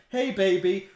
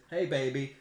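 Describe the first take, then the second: First: Put-on "Hey, baby." lifted high and louder, sing-song; louder, higher hey baby. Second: Said in the usual way. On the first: Talking to the baby bump, loud and high. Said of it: "I rubbed her belly and I said". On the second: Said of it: "she walked into the house and I said".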